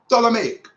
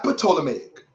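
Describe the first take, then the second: First: The word begins with a silent P. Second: The word begins with a sounded P. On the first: The speaker calls it right. "The P is silent" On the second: The speaker calls it wrong. "Not Ptolemaic"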